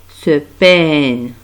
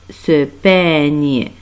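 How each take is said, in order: Both takes have the same delivery.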